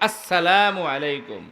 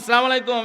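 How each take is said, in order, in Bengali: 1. হামজা এবং s ধ্বনি স্পষ্টভাবে উচ্চারিত হচ্ছে। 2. ব্যঞ্জনগুলো তাড়াহুড়ো করে বলা হচ্ছে এবং একসাথে জড়িয়ে যাচ্ছে। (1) "হামজা স্পষ্ট, সিন স্পষ্ট" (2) "ওই ইলেকশনের সালাম দিবেন না, ... এরকমের না"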